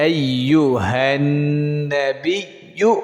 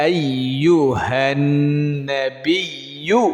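Both takes have the same delivery.

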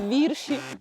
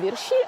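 First: The stress is on the first syllable. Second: The stress is on the second syllable. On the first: The speaker calls it right. "а вірші" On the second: The speaker calls it wrong. "Не вірші"

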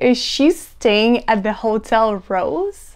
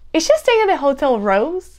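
First: Each word is said separately and clearly. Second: The words are run together like one word. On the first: The speaker calls it wrong. "instead of saying" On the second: The speaker calls it right. "just go ahead and say"

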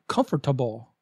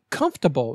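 First: The word has four syllables, like 'com-for-ta-ble'. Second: The word has three syllables, like 'comf-ter-ble'. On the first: The speaker calls it wrong. "not comfortable. The OR is silent" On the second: The speaker calls it right. "Say comfortable"

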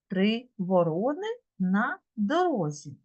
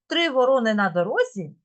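First: It is said at an ordinary, slower pace. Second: It is said at a quicker, faster pace. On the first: "Давайте спробуємо" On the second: "А тепер давайте швидше"

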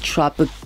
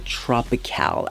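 First: The word is said as plain English 'tropical'. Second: The word is said with a fancy French-like ending. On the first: It is the ordinary everyday pronunciation. "but it's tropical" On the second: It sounds posh or sophisticated. "I don't know if I'm saying it right or if I'm just trying to be bougie"

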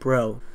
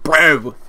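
First: The word is said softly and less aggressively. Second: The word is said harshly and aggressively. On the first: The speaker calls it right. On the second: The speaker calls it wrong.

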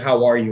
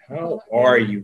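First: It is a quick, casual passing greeting. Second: It is a sincere, caring question.

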